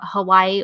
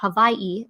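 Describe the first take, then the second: First: Hawaii is said the usual mainland English way. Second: Hawaii is said the way island locals say it.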